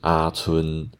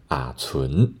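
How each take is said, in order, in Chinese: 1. 两个字都保持平平的中平调。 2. 第一个字先降到低，然后再升。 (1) "它是啊存，都是中间的平调" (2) "往上升的字遇到后面也是往上升的时候，就要变低下来，所以要讲啊存"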